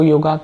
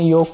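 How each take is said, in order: First: The word ends with a long 'aa' vowel. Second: The word ends with a short, light vowel. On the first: The speaker calls it wrong. "आ का उच्चारण होने लग गया है" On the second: The speaker calls it right. "आखिरी में अ का उच्चारण होता है"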